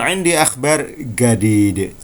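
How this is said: It is said in an Egyptian Arabic accent.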